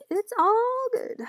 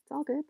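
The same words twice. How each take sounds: First: Much higher and slow, stretched out; slow high sing-song. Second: Said in the usual way. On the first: Pretend. Playfully reassuring herself while drawing, slow and high. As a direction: draw it out high like a silly song.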